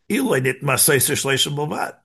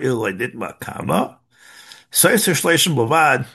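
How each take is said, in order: First: It runs on with no pause after Nitma. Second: There is a pause after Nitma.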